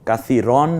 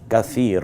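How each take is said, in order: First: The word ends with a final 'n' sound. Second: The word ends on a drawn-out vowel. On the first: The speaker calls it wrong. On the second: The speaker calls it right.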